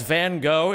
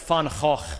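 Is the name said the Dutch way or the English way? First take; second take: English; Dutch. First: The name is said with English sounds. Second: The name is said with Dutch sounds. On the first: The speaker calls it wrong. "The artist that you know as" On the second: The speaker calls it right. "is actually pronounced"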